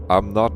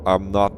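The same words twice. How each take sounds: The two takes are said the same way.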